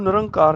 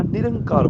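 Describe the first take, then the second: First: ਨਿਰੰਕਾਰ said without the sihari, as nirankaar; the incorrect ਨਿਰੰਕਾਰ, plain a after n; wrong pronunciation. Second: ਨਿਰੰਕਾਰ with a short i after n, nirankaar; ਨਿਰੰਕਾਰ said nir-an-kaar, clear i; correct pronunciation. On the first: Teacher showing the mistake on ਨਿਰੰਕਾਰ, plain a after n. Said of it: "ਇਹਨੂੰ ਨਿਰੰਕਾਰ ਨਹੀਂ ਬੋਲਣਾ". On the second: Teacher giving the right ਨਿਰੰਕਾਰ, short i after n. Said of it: "ਨਿਰੰਕਾਰ ਬੋਲਣਾ ਹੈ". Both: Shown as a demonstration.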